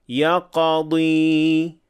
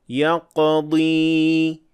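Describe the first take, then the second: The two takes are said the same way.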